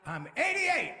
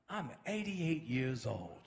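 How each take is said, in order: First: High, loud proud exclamation; elder crowing it out loud; exclaimed reveal. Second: Low, very slow, measured statement; older gentleman's reveal. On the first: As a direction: burst upward on the age. Older minister repeats age emphatically. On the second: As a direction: let each word land slowly. Older minister reveals his age. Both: Retold or imitated.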